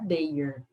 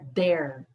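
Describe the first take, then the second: First: It is pronounced differently from 'there'. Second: It is pronounced exactly like 'there'. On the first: The speaker calls it wrong. "Não é their" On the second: The speaker calls it right. "é their. Ela é igual a uma outra palavra, uh, there"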